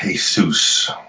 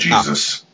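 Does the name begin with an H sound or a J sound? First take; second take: H sound; J sound. First: The name begins with an H sound. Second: The name begins with a J sound. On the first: The speaker calls it right. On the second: The speaker calls it wrong.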